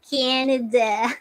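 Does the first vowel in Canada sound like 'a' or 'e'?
e. The first vowel sounds closer to 'e'. "Like the A become E"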